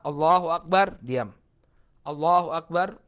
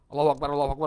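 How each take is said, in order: First: A short silence separates the two phrases. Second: The phrases follow each other with no pause. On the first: The speaker calls it right. "Allahu Akbar, diam" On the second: The speaker calls it wrong. "Jadi enggak"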